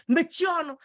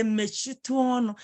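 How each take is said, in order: First: Higher-pitched, disrespectful order; rude, disrespectful. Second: Courteous request at an everyday pitch; polite, respectful. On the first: Teacher showing what not to say to a senior, rude. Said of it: "you're disrespecting that person". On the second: Teacher showing a pupil what to say to elders, polite. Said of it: "in a polite way". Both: Shown as a demonstration.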